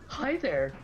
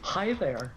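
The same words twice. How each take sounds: First: It is said in a more camp funny voice. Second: It is said in a funny put-on voice.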